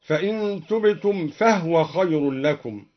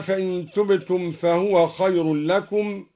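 First: فهو said fahw, the ha without a vowel; silent h vowel. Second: Said in the usual way. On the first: Shown as a demonstration. (فهو بإسكان الهاء: فَهْوَ) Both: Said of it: "أسكن الدوري الهاء هكذا".

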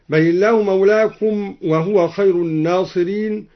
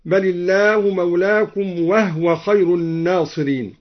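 First: Said in the usual way. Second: وهو said "wahwa", no vowel after h; vowelless ha in وهو. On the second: Shown as a demonstration. Teacher showing al-Duri's reading, وهو as "wahwa". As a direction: close وهو on a bare h, "wah-wa". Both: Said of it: "سكن الدوري الهاء من وهو هكذا".

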